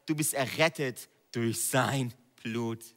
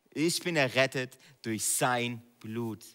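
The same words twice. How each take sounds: First: Said in the usual way. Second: Slow, Ich stressed; first person proclamation. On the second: Shown as a demonstration. Preacher turning the verse into a personal declaration. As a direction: claim it for yourself. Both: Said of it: "Sprech die Bibelverse".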